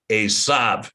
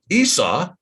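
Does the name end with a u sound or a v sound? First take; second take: v sound; u sound. First: The name ends with a v sound. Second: The name ends with a u sound. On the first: This is the form from the later pointing. "allegedly pronounced Esav" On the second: This is the older form without the later pointing. "before that, it was u"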